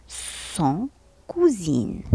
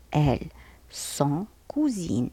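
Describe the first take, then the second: First: Cousines drawn out slowly with a falling end; teacher modelling pronunciation; slow careful French. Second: Elles sont cousines, slow and soft; teacher repeating for pupils; slow careful French. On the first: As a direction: stretch out cousines. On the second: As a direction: say cousines slowly and quietly. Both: Shown as a demonstration. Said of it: "S O N T".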